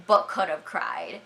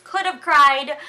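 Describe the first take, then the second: First: Said in the usual way. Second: "Could have cried" high and loud; "Could have cried" raised in exaggerated distress; emphatic exclamation. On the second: Real, not acted. Emphatic contrast with did not.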